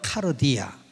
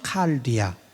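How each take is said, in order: First: It is said with Korean-style sounds. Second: It is said with the original Greek sounds. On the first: "우리나라 발음으로" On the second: "헬라어로는 칼디아. 원래 칼디아가 맞습니다"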